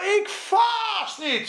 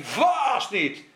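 First: Ik vast niet shouted high and slow, IK stretched; proud slow yell from Peter; boastful shout. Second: Said in the usual way. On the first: Acted. (hoge, trage opschepperige uitroep) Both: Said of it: "zei hij".

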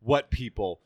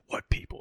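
First: Low retold challenge; imitating Batman. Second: Hushed, whispery challenge; imitating Batman. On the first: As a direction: put the question in a lower voice. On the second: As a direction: drop the question to a husky undertone. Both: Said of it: "the way he says".

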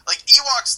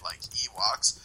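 First: "Ewoks" punched much higher and louder; emphatic repeat. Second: Said in the usual way. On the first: Real, not acted. Ranting to the cohost about the film, "Ewoks" stressed hard. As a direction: hit "Ewoks" hard, high and loud.

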